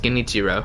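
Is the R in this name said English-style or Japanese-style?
English-style. The R is said as an English R. An English speaker says the name this way. "I'm an English speaking guy, so I pronounce it as Genichiro"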